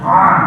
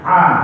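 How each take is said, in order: First: The vowel starts with a tight throat sound. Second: The vowel starts with a light glottal stop. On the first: "Yang belakang A" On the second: "Yang depan A"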